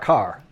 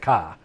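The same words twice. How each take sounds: First: It is said with a Chicago accent. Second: It is said with a Long Island accent. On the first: "I pronounce C A R car" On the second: "as opposed to car"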